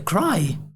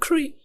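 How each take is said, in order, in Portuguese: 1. A vogal soa como 'eye'. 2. A vogal soa como 'ee'. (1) "É cry" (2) "Ele nunca vai ouvir o nativo a pronunciar Cree"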